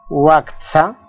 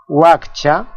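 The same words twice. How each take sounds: First: "waktsa" with ts in place of ch; CHA as TSA. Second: Said in the usual way. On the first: Shown as a demonstration. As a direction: say "waktsa", a t running into s in the middle. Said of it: "también es pronunciada como tsa". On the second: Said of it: "Esta suena como cha".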